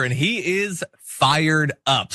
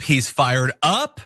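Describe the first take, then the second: First: Said in the usual way. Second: Slow "He's fired up." with the pitch rising on "up"; rising intonation. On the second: Shown as a demonstration. Host mocking a fired-up senator, slow with "up" rising. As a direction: let "up" lift at the end, drawn out. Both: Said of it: "even the intonation went up".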